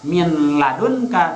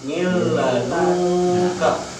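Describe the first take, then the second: First: The n is pronounced clearly before the l. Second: The n merges into a doubled l sound. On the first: The speaker calls it wrong. "jangan dibaca min ladunka" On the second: The speaker calls it right. "tapi mil ladunka"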